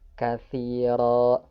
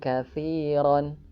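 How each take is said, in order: First: The word ends with a long vowel, no n. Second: The word ends with a short vowel and n. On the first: The reader stops at this word. "ketika kita berhenti di katsiran berubah menjadi katsiro, ro-nya dibaca dua harokat" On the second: The reading continues without stopping. "ketika kita baca al-hikmata faqad utiya khairan katsiran"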